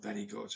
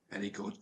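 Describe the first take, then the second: First: High, soft, condescending praise falling away; patronising. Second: Soft, high and mocking praise; patronising. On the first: Retold or imitated. Sergeant belittling the speaker after his session, patronising. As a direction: talk down to him sweetly. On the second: Sergeant mocking the speaker's police talk, patronising. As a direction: pat him on the head with it. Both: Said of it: "He was patronising me".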